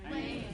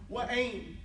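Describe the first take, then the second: First: It is merged into a single syllable. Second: It is said as two separate syllables. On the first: "what do they say? Wayne" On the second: "instead of saying fa'ain, wa'ain"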